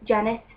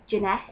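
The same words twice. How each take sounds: First: Said in the usual way. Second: "Jeanette" with the stress moved to the second syllable; "Jeanette" as people mistakenly say the name Janet, juh-NET; mispronounced name. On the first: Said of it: "We just do Janet". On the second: Shown as a demonstration. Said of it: "sometimes people pronounce Janet".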